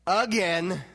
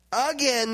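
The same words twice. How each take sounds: First: Heavy stress on "again", slow falling. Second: "Again" punched high and loud; loud emphatic again. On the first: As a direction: say "again" firmly with a drop. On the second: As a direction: hit "Again" hard and high. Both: Shown as a demonstration.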